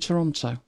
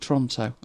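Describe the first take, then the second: First: The name is said in an outsider's pronunciation. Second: The name is said the way locals say it.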